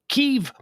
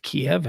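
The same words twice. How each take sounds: First: The name is said the newer, local way. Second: The name is said the familiar English way. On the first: This is how news channels now say it. "It's pronounced Kiev" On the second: This is how it has always been said. "it's not pronounced Kiev anymore"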